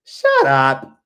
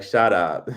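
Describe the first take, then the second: First: Put-on loud, high French-Caribbean-accented scolding; emphatic "shut up" in a French-Caribbean accent trying to sound American; grandmother's accented emphasis. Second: Quick, low "shut up"; lightly emphatic, low imitation of oneself; own catchphrase. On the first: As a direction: imitate a French-Caribbean grandmother hushing noisy kids. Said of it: "say it with, like, a little, like, emphasis". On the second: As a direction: quote your own catchphrase briskly. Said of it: "when you'd be like".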